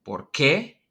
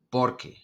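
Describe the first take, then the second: First: Por qué with the stress on qué, rising. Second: Por qué with the stress on por, falling. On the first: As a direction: lean on qué, voice up at the end. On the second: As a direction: lean on por, voice down at the end. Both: Shown as a demonstration. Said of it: "So notice the difference".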